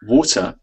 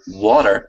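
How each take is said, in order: First: A British accent: clear T, no final R. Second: An American accent: soft T, final R heard. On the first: "the British one" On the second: "the American one"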